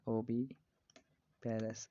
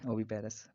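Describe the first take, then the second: First: oviparous split into long pieces; slow dictation. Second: Said in the usual way. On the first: Shown as a demonstration. Teacher repeats the egg-layer term for students, very slowly. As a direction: pause inside oviparous, dragging it out.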